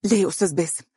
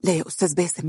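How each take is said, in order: First: Raised, tense refusal; nervous no into the phone. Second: Tense, hushed plea; tense protest into the phone; nervous. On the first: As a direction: refuse him anxiously. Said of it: "سمعتها تقول". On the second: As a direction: nervously push back on a caller. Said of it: "تقول بتوتر". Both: Acted.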